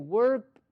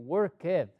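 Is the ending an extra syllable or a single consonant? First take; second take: single consonant; extra syllable. First: The ending is one consonant, no extra syllable. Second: The ending is said as an extra syllable. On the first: The speaker calls it right. "voy a decir worked" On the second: The speaker calls it wrong. "no voy a decir worked"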